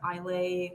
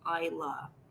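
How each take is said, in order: First: The name is said a non-local, different way. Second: The name is said the local Scottish way. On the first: The speaker calls it wrong. "if you pronounce it Islay or Isla, ... you might get corrected" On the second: The speaker calls it right. "is pronounced Isla if you go to Scotland"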